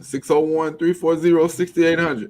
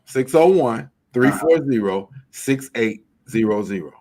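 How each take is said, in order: First: The number is said fast. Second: The number is said slowly.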